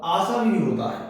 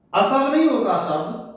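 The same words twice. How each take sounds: First: आसव with long first aa; correct long aa. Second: असव with short first a; wrong short a. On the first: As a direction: stretch the aa in आसव. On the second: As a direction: say असव as a-sav, clipped first vowel. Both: Shown as a demonstration.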